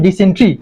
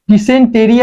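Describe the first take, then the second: First: "dysentery" shortened to di-sen-tri, three syllables; correct pronunciation. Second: "dysentery" drawn out as written, di-sen-te-ri, four syllables; spelling pronunciation. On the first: Teacher telling students how the word is spoken, correct pronunciation. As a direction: drop the e before the r in "dysentery". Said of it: "উচ্চারণ হবে". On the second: Teacher showing students how the word is written, spelling pronunciation. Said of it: "actual লেখা হয়". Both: Shown as a demonstration.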